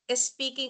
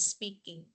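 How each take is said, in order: First: A short vowel is added before the s sound. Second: The word begins directly with the s sound. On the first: "some of the Filipinos insert in the beginning" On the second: "the English word speaking"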